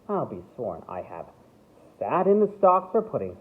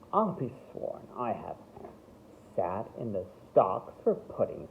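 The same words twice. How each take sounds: First: It is said without a condescending tone. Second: It is said in a condescending tone.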